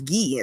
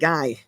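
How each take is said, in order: First: The name is said with a French pronunciation. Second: The name is said with an English pronunciation. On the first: The speaker calls it right. "in French it's Guy" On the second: The speaker calls it wrong. "It's not Guy"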